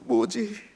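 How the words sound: It sounds sad and sorrowful. The speaker is grieved by something. "슬픔의 뭐지도 있습니다"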